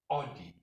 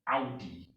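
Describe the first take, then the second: First: The first vowel has the English pronunciation. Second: The first vowel has the German 'ow' pronunciation. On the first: "We all English people we say Audi" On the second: "When you get in Germany, say Audi"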